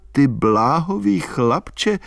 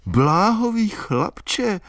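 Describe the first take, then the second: First: Said in the usual way. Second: Bláhový chlapče repeated much higher and slow with mounting excitement; high, thrilled Bláhový chlapče; excited. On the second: A narrator's reading. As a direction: burst out Bláhový chlapče again, stirred. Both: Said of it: "opakovala vzrušeně".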